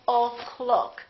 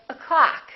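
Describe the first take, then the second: First: The first vowel is a full O. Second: The first vowel is reduced to uh. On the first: The speaker calls it wrong. "We don't say" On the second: The speaker calls it right. "We say"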